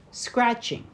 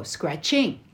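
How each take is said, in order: First: "Scratching" with stress on SCRATCH, higher; right stress. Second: "Scratching" stressed late with a rise; wrong stress. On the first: Showing English stress to a friend, first syllable pushed. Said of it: "Like we go". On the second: Showing wrong English stress, the ending rising. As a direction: push the end of "Scratching" up. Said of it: "We don't go". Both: Shown as a demonstration.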